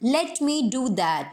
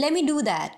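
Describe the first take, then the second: First: Very slow, a clear t in "Let"; full "let me". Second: "Let me" as "lemme", quick; American "lemme". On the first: Teacher showing the form to avoid. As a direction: say each word apart. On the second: Teacher showing the native form. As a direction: blend it. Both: Shown as a demonstration. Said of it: "इसकी जगह".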